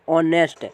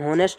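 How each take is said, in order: First: The word begins with a vowel sound. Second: The word begins with an h sound. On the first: The speaker calls it right. "यहाँ होता है ऑनेस्ट" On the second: The speaker calls it wrong. "यहाँ हॉनेस्ट नहीं होता है"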